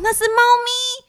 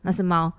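First: It is said excitedly with rising pitch. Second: It is said in a flat, dull tone.

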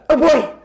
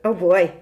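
First: It is said loudly and over-excitedly. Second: It is said more quietly and calmly.

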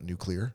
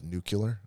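First: The word is said like 'nuclear'. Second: The word is said like 'nucular'. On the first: It is the usual way of saying it. The speaker calls it right. "and not nuclear" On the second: It imitates how a past president said it. The speaker calls it wrong. "W used to say it as nuclear"

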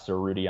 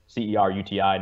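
First: The first syllable sounds like the word 'sir'. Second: The first syllable does not sound like 'sir'. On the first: The speaker calls it wrong. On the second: The speaker calls it right.

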